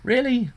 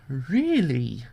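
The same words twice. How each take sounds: First: High, shocked disbelief; really? pitched way up in amazement; stunned by what the show just did; incredulous really. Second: Dropped, weary disbelief; deadpan really. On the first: Reacting to a cheesy anime scene. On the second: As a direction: sigh it out like you've given up on the show. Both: Real, not acted.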